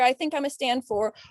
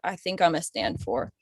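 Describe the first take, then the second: First: The voice is pitched high and tense. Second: The voice drops low and heavy. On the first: "that high pitched, I'm saying this out of fear" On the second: "dropping down too much"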